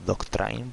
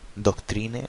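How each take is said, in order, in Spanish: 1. Se pronuncia con sonidos ingleses. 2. Se pronuncia con sonidos de lectura al estilo español. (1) "se debería decir doctrine" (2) "lo decimos tal como se lee"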